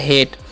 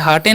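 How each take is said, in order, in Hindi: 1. यह एक अक्षर में बोला जाता है, hate। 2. यह दो अक्षर में बोला जाता है, haa-tay। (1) "टी से तो हो गया हेट" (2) "इसे हाटे नहीं"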